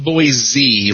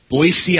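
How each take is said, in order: First: The middle consonant is a buzzing z sound. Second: The middle consonant is a hissing s sound. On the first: The speaker calls it wrong. "Not Boise like zebra" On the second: The speaker calls it right. "You pronounce it like an S because it is an S"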